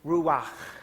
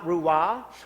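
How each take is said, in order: First: The final sound is rasped in the throat. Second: The final sound is soft, without throat friction. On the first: The speaker calls it right. "that back of the throat ancient Hebrew term" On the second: The speaker calls it wrong. "It's not ruah"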